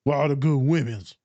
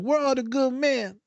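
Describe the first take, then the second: First: Lightly imitated male friend's lament; a hint of a mocked buddy voice; boy's odd delivery. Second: High, drawn-out mock lament; imitated breakup wail, pitched way up; lamenting clients. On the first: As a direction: mimic the boy's odd way of asking. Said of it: "why you say it like that?". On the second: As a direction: whine it high and slow as an imitation. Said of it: "they're like".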